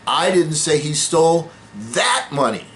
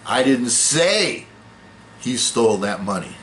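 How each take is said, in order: First: The word 'that' carries the main stress. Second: The word 'say' carries the main stress. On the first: He took different money. "No, he stole somebody else's money" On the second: It was conveyed some other way than saying. "No, I wrote it down, or I whispered it, or I implied it"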